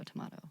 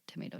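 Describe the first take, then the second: First: Tomato with an AH, tuh-MAH-toh; British pronunciation. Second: Tomato with an AY, tuh-MAY-toh; American pronunciation. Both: Shown as a demonstration. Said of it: "it is the American British".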